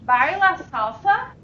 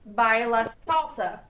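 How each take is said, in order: First: The pitch rises at the end. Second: The pitch stays flat at the end. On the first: It asks whether you salsa dance. "Question, ... My voice goes up at the end when it's a question" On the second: It states that you salsa dance.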